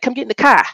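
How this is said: It is said in a Boston accent.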